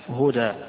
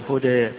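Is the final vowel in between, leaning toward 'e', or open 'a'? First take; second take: open; in between. First: The final vowel is an open 'a' sound. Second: The final vowel falls between 'a' and 'e'. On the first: "إما الفتح" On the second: "وإما بين بين"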